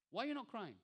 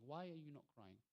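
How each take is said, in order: First: Higher-pitched repeat of the question; pressing question. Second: Quiet questioning. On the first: Rasulullah pressing the dry-eyed young boy, pressing question. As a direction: ask it with more lift, then let it fall. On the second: Rasulullah asking a young boy among the weepers, quiet questioning. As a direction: softly put question, falling at the end. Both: Acted.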